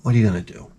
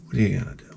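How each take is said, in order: First: Said in the usual way. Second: Breathy whispered repeat. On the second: Real, not acted. Shrugging to viewers about the thrift store, whispered. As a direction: let it fall to a whisper.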